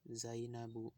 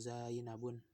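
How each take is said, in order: First: The word ends without an n sound. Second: The word ends with an n sound. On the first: The speaker calls it right. "yang perempuan nggak boleh tanwin" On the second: The speaker calls it wrong. "Zainabun nggak boleh"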